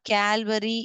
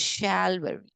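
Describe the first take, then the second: First: The word begins with a k sound. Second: The word begins with an sh sound. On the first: The speaker calls it wrong. "It is not Calvary" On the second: The speaker calls it right. "C H is making over here sh sound"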